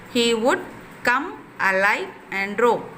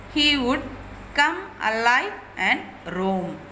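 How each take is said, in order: The two takes are said the same way.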